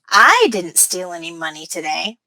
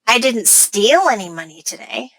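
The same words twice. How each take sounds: First: The word I carries the main stress. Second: The word steal carries the main stress. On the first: Someone else stole the money. "By putting stress on I" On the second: The speaker got the money some other way. "By putting stress on steal"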